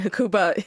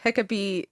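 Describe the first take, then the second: First: The name is said in the English pronunciation. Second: The name is said in the Greek pronunciation. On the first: "Hecuba is the like English" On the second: "I believe Hecabe is the Greek"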